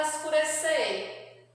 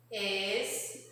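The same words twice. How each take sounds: First: Said in the usual way. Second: "Escurecer" softly split as es-cu-re-cer, long gaps between; four separate, soft syllables in "Escurecer". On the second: Shown as a demonstration. Teacher separating a word for children, "Escurecer" syllable by syllable. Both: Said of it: "nós vamos separar as sílabas".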